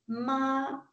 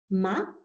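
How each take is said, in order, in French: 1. Il est prononcé avec un premier ton plat. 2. Il est prononcé avec un deuxième ton montant. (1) "si le ton est stable, le premier ton" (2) "le deuxième ton, le ton monte"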